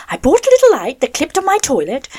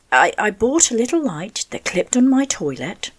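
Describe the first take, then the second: First: Said in the usual way. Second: Breathy near-whisper, barely voiced; telling the toilet-light story half-whispered; whispery voice. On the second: Real, not acted. Whispery voice to radio listeners. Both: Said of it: "I sound like Janet Webb".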